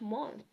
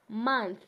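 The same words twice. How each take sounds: First: The vowel sounds like 'oh'. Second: The vowel sounds like 'uh'. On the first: The speaker calls it wrong. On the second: The speaker calls it right.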